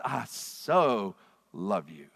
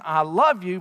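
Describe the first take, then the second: First: "so" drawn out, low, slow and tender; stress on so. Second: Said in the usual way. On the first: Shown as a demonstration. Showing the Greek adverb hutos, tender stress on "so". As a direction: lean into "so" slowly and softly. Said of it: "adds intensity to the verb". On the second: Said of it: "It's the same thing as saying".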